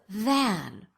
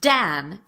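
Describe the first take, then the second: First: The word begins with a voiced TH sound. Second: The word begins with a D sound. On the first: The speaker calls it right. "the voiced T H" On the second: The speaker calls it wrong. "substitute a d or a z, that's a D or a Z, for the voiced T H"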